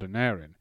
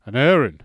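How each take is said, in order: First: Said in the usual way. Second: Loud, hushed wonder at the name; awed. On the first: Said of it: "narration of the same name". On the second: Acted. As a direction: say the name in awe. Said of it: "said my father in an awed tone".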